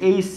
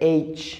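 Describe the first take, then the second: First: It ends with an s sound. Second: It ends with a ch sound. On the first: The speaker calls it wrong. "এইস বলি, আসলে এটা এইস নয়" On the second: The speaker calls it right. "এটা হচ্ছে এইচ। So এখানে চ হচ্ছে"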